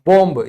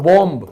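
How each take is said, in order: No difference in how they are said.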